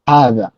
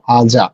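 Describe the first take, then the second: First: The middle consonant is a voiced th sound. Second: The middle consonant is a j sound. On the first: "জিহ্বার আগালটা উপরের পাটির দাঁতের সাথে এই জায়গাতে লেগে" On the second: "বাংলাদেশের প্রেক্ষাপটে আমরা হাজা বলতে চাই"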